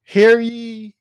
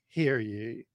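First: Loud, high proclamation call; town crier. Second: Said in the usual way. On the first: Acted. Mock town crier opening.

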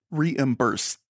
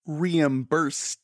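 First: Reimbursed with every syllable crisply pronounced; over-enunciated. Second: Reimbursed said slowly and crisply, each syllable clear; over-enunciated. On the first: Mimicking Lindsay, over-enunciates reimbursed. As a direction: draw out reimbursed, precise and crisp. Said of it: "I was doing an impression of you". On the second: Teasing Lindsay, crisply over-enunciates reimbursed. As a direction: enunciate reimbursed like a stage actor. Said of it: "you would have been like". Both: Retold or imitated.

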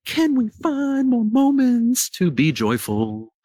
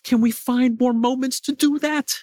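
First: Slower, drawn-out question with weight on "Can"; slow emphatic. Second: Said in the usual way. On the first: Real, not acted. Urging viewers to seek joy, slow and emphatic. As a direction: lean in and slow the whole question down.

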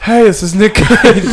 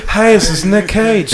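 First: Slow, high, emotional Nick Cage greeting; more emotion. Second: "Hey, this is Nick Cage" said slowly with the tongue stuck to the roof of the mouth, laughing; "Nick Cage" mumbled, tongue pressed up high. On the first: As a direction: overact the greeting with feeling. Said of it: "more emotion". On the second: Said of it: "We stuck the tongue to our top mouth". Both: Retold or imitated.

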